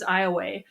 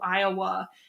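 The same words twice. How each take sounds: First: It is said the older local way. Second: It is said the later, changed way. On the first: This is how some locals said it long ago. "it was pronounced by some locals as Iowa" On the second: This is how it came to be said later. "the pronunciation began to change then as the century wore on to Iowa"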